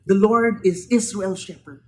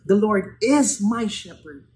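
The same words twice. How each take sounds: First: Israel's leaned on as the owner named; Israel's given the weight, level fall at the end; stress on Israel's. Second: My pressed hard, slower, the personal claim; my carries the weight against Israel's; stress on my. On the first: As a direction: hit Israel's to set up the contrast. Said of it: "But David didn't say". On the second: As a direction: lean into my and take it slow. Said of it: "He said". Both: Shown as a demonstration.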